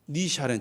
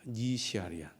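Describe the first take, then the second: First: The name is said as short 'Ni Sharen'. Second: The name is said as longer 'Ni Siarian'. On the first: The speaker calls it wrong. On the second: The speaker calls it right.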